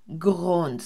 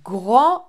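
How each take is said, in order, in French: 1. Le S final se prononce. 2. Le S final est muet. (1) "on ne dit pas grands" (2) "je ne prononce pas le S"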